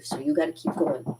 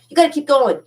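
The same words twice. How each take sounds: First: Said in the usual way. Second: Much higher and louder, driving it home; rally your viewers to keep going, loud and high; emphatic push. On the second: Real, not acted. Urging streaming viewers not to give up, loud and emphatic.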